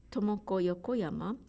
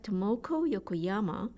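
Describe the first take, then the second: First: Tomoko Yokoyama with even, unstressed syllables; Japanese way. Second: Tomoko Yokoyama with the middle syllables pushed, English stress; English-style stress. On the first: Teacher showing her name in Japanese, even syllables. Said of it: "in English style". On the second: Teacher mimicking English readers, stressed syllables. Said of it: "it sounds like". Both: Shown as a demonstration.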